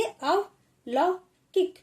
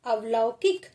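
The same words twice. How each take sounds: First: अवलौकिक drawn out slowly and pitched higher; slow teacher demo; slow sounding-out. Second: Said in the usual way. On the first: Shown as a demonstration. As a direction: stretch अवलौकिक syllable by syllable. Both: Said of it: "थोड़ा जल्दी बोलेंगे".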